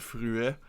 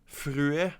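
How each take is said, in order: First: The name is pronounced the French way. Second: The name is pronounced the English way.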